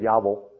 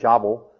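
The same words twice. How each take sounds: First: The name is pronounced the Hebrew way. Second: The name is pronounced the English way. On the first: "in Hebrew is" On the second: "Jabal is probably what your text says"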